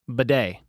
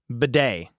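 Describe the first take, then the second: First: The name ends in a stressed 'day' sound. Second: The same.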